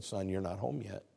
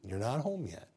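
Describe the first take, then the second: First: Soft, lower, tender reply; tender voice of God. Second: Tender whispered repeat of "You're not home yet"; whispered God's voice. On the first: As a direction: gently comfort a grieving son. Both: Acted. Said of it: "so tenderly said".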